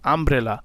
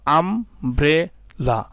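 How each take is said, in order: First: Said in the usual way. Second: আমব্রেলা drawn out very slowly in three parts; teacher splitting আমব্রেলা; slow syllable split. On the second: Shown as a demonstration. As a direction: sound out আমব্রেলা beat by beat. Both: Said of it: "তিনটা অংশে বিভক্ত করা গেছে".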